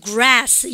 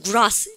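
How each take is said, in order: First: "grass" with a slow, flat American A; drawn-out American "grass"; American accent. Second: "grass" with a British broad "ah"; British-accented "grass", open back vowel. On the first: Teacher shows how Americans say it, American accent on "grass". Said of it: "미국 애들은 뭐라 합니까". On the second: Teacher shows how the British say it, British accent on "grass". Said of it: "영국 애들은". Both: Shown as a demonstration.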